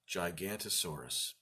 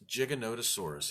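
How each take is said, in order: First: There is no 'o' syllable after 'gigan'. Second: An extra 'o' syllable follows 'gigan'. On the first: The speaker calls it wrong. "Longest time I pronounced it Gigantosaurus" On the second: The speaker calls it right. "there's an O in the middle of that"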